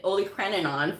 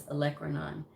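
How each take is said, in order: First: Olecranon said wrongly, with an "oly" start; mispronounced olecranon. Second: Olecranon said "uh-LEK-ruh-non", quieter and lower; correct olecranon. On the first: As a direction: say olecranon with "oh-lee" at the front. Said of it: "I was saying that word wrong". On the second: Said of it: "I've been saying it olecranon for years". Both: Shown as a demonstration.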